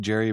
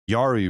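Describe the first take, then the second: First: The name begins with a hard J sound. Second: The name begins with a soft Y sound. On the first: "I think it might be Jerry" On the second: "Yari would be funny just with the soft J"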